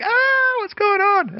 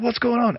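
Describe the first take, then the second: First: Much higher and louder startled "what's going on?"; mock scream. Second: Higher, urgent "what's going on?" but less shrill; alarmed question. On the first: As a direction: shriek it like frightened passers-by. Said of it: "They scream like". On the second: Retold or imitated. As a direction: ask it running up in alarm. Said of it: "we run up and like".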